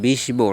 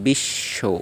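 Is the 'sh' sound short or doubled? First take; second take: short; doubled. First: The 'sh' sound is short. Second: The 'sh' sound is doubled. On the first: The speaker calls it wrong. "আমরা কি বলি বিশ্ব না" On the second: The speaker calls it right. "সংযুক্ত বর্ণের দ্বিত্ব উচ্চারিত হয়"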